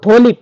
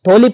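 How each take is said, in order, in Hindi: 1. शब्द सांस वाली t ध्वनि से शुरू होता है। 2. शब्द सांस वाली t ध्वनि से शुरू होता है।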